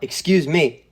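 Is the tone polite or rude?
rude. It is said in a rude, pushy tone.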